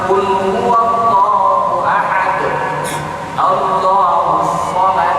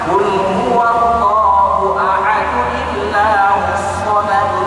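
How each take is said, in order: First: It stops after ahad, then starts again. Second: It flows on in one breath, joined by n. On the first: It is the safe way to recite. "Kalau kita mau selamat" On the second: It is the more skilful way to recite. "kita baca satu nafas"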